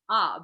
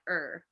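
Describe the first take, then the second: First: The vowel is open with no r sound. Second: The vowel is said with an r coloring. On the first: "we we pronounce it like ah" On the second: "they're like er"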